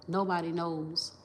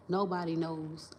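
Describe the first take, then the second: No difference in how they are said.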